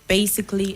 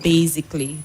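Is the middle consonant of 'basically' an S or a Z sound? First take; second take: S; Z. First: The middle consonant is an S sound. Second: The middle consonant is a Z sound. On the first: The speaker calls it right. "The S there sounds S" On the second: The speaker calls it wrong. "and not Z"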